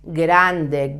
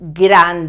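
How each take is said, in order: First: The consonants are pronounced softly and gently. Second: The consonants are pronounced hard and explosive. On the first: The speaker calls it right. "it's grande, grande, soft" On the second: The speaker calls it wrong. "It's not grande"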